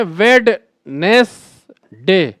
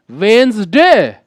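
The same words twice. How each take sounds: First: वेडनेसडे said slowly, sounding the d; wrong pronunciation. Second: वेंसडे with the d silent, like "wenz-day"; correct pronunciation. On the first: Teacher mimics the common wrong version to warn students. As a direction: spell out वेडनेसडे letter by letter, d included. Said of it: "बहुत बड़े पढ़े लिखे लोग भी बोलते हैं". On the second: Teacher models the correct version for students. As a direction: drop the d: वेंसडे. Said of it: "इसे हम लोग बोलते हैं". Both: Shown as a demonstration.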